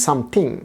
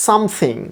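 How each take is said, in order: First: Something with a hard T, "samting"; common mispronunciation. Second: Something with an airy th in the middle; soft th. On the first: Teacher showing what everyone says, hard-T something. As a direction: stop the th of something into a T. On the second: Teacher modelling the word for learners, soft-th something. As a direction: let air flow through the th of something. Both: Shown as a demonstration. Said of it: "আমরা সকলে বলি something".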